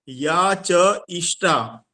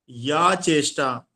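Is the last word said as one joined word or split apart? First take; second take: split; joined. First: The sounds are split into cha and ishta. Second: The sounds are joined into one word, cheshta. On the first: It means the effort that is desirable for that person. The speaker calls it right. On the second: It means whichever physical effort. The speaker calls it wrong.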